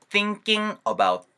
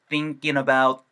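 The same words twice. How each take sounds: First: The -ing ending stays separate from 'about'. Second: The ending becomes 'in' and runs into 'about'.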